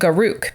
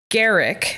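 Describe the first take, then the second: First: The last syllable sounds like 'ruck'. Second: The last syllable sounds like 'rick'. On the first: "so many people pronounce it Garuk because R U C K is the last four letters" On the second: "so many people pronounce it Garrick"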